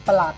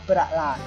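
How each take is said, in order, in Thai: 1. คำนี้พูดแบบสบายๆ เสียงลดลง 2. คำนี้พูดแบบตั้งใจ ออกเสียงเต็มคำ (1) "คุยกับเพื่อนก็ประหลาดเฉยๆ" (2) "ต้องอ่านว่าประหลาด"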